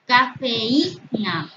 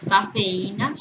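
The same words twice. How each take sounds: First: "Cafeína" very slow, syllables separated; drawn-out example word. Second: Said in the usual way. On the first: Shown as a demonstration. Teacher showing the hiatus in a word, drawn out. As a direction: stretch "Cafeína" so the í stands apart.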